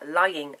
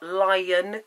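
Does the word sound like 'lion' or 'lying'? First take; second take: lying; lion. First: It sounds like lying, telling untruths. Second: It sounds like the animal word lion. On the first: The speaker calls it right. "lying, as in you're a liar" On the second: The speaker calls it wrong. "Not Lyin King"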